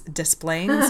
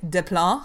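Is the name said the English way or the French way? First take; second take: English; French. First: The name is said with English pronunciation. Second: The name is said with French pronunciation. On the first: This is how locals actually say the name. "but here, this is Des Plaines, Illinois" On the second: This is how the name reads as a French word. "it would look like en français"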